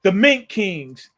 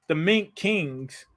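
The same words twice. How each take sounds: First: Said in the usual way. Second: Hushed amazement, slow; awed hush. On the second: Real, not acted. Repeating the name in awe.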